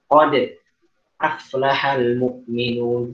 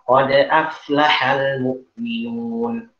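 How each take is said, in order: First: There is a short pause after qad. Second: There is no pause after qad. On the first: The speaker calls it wrong. "terus kita berhenti sejenak ... itu nggak boleh" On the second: The speaker calls it right. "Jadi gimana?"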